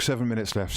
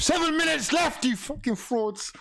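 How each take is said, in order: First: Said in the usual way. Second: Furious shout. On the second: Real, not acted. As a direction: rage at the players. Repeated louder at the team.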